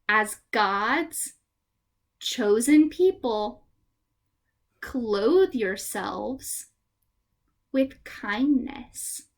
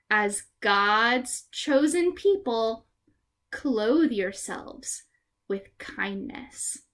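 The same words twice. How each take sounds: First: The verse is said slowly. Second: The verse is said fast.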